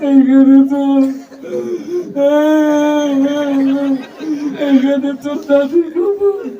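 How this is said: The line is recited in a crying voice. The reciter is overcome by grief. "ও আগেই কান্দা শুরু করে দিছে"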